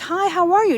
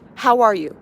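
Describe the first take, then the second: First: It is said casually, as a routine greeting. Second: It is said sincerely, with real concern.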